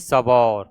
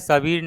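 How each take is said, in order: First: The second syllable has an 'au' vowel. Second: The second syllable has an 'ee' vowel. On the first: The speaker calls it right. "नहीं सबौर" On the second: The speaker calls it wrong. "सबीर नहीं"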